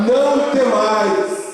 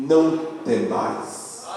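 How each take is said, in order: First: High, drawn-out exhortation; emphatic proclamation. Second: Slow, soft drop on the prophet's words; hushed reassurance. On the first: Real, not acted. Pastor hands the word to the congregation, high emphatic exhortation. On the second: Acted. Pastor reads the Lord's message to Judah, slow and hushed. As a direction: let it fall soft and unhurried. Climax of prophecy read aloud.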